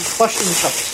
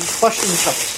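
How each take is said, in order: First: It is said in an imitated New Zealand accent. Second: It is said in an imitated New Zealand accent.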